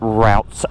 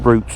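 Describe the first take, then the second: First: It is said with an American accent. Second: It is said with a British accent.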